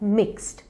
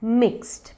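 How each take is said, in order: Both takes have the same delivery.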